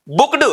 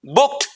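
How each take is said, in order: First: "बुक्ड" ending on a d sound, bookd; wrong pronunciation. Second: "बुक्ड" ending on a crisp t, bookt; right pronunciation. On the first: Teacher showing the wrong "बुक्ड" with d. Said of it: "wrong pronunciation". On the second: Teacher showing the correct "बुक्ड" ending in t. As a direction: close "बुक्ड" with a sharp t. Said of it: "right pronunciation". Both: Shown as a demonstration.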